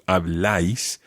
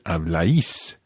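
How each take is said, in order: First: The stress falls on the A sound. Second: The stress does not fall on the A. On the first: The speaker calls it right. "On the A, so habláis" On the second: The speaker calls it wrong. "as opposed to habláis"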